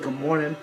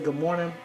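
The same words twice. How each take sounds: First: It sounds casual and insincere. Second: It sounds warm and sincere.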